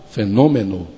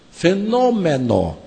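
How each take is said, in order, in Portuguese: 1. A vogal tônica é fechada. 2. A vogal tônica é aberta. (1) "para nós" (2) "Lá"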